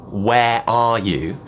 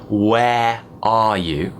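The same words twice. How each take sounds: No difference in how they are said.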